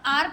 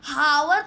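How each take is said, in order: First: The word begins directly with a vowel sound. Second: The word begins with an audible h sound. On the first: The speaker calls it right. "आप आर पढ़ते हो" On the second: The speaker calls it wrong. "हावर तो नहीं पढ़ते हो ना"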